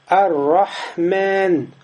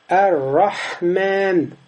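The two takes are said the same way.

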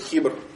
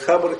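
First: The first vowel is a front 'i' sound. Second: The first vowel is an open 'a' sound. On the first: "ва касри" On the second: "бифатхи ха"

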